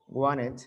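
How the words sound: It is said with an American pronunciation. "wanted, it's American"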